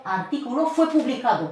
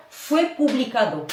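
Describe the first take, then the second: First: Teacher model sentence; model phrase. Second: "fue publicado" said clearly with the weight on "fue"; drilled phrase. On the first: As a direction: model it for the class to learn by heart. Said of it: "Vous apprenez par cœur". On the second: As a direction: repeat the phrase for them to learn by heart. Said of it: "Vous apprenez par cœur, fue publicado". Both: Shown as a demonstration.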